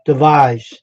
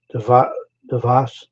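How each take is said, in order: First: "Devise" with a long "eye" in the second syllable; corrected pronunciation. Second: "Devas" tried out haltingly, second syllable as "vas"; unsure pronunciation. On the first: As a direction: copy it as "Devise", stressed on "vise". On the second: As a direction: attempt "Devas" in halting pieces, with an open a. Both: Real, not acted. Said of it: "find out how to pronounce that".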